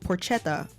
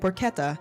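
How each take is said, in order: First: The word is pronounced the way it is spelled. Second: The word is pronounced differently from its spelling. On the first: This is an older, mistaken habit. The speaker calls it wrong. "this is how I used to pronounce it" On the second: This is the current, corrected habit. The speaker calls it right. "now I say porchetta"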